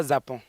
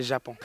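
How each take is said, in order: First: "Japon" with a z, as "Zapon"; wrong pronunciation. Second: "Japon" with a soft zh for the j; correct pronunciation. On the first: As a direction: quote the wrong "Japon", starting on a buzzing z. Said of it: "On ne dit pas Japon". (« Japon » dit à tort « Zapon ») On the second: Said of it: "c'est Japon". (« Japon » avec un j bien chuinté, comme « je ») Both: Shown as a demonstration.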